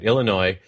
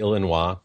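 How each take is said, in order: First: It is said with an American English pronunciation. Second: It is said with a French pronunciation. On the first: "I'll say it right" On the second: "in French, shouldn't that really be Illinois?"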